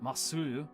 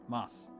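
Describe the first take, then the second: First: The word ends with a clear final u vowel. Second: The word ends on s with no vowel. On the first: The speaker calls it wrong. "It's not Masu" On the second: The speaker calls it right. "It's Mas"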